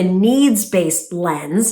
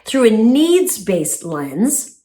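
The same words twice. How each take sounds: First: Needs-based drawn out slowly with weight; slow emphasis. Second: Through a needs-based lens said slowly, each word weighted; slow emphasis. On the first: Sharing a therapist's phrase, said slowly and pointedly. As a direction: lean on needs-based, each word spaced. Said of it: "as my therapist, Doctor Jeb, says". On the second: Repeating her therapist's phrase for the viewers, slow and pointed. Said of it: "says, through a needs-based lens". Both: Shown as a demonstration.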